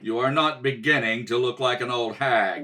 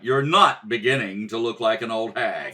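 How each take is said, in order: First: The word 'beginning' carries strong stress. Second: The word 'beginning' carries no special stress.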